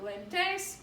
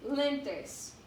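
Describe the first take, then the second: First: Lentes misstressed as len-TES; wrong stress. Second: Lentes said as LEN-tes; stress on first syllable. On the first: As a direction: punch the last syllable of lentes. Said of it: "not lentes". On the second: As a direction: hit the first vowel of lentes. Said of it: "second to last vowel is the stress". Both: Shown as a demonstration.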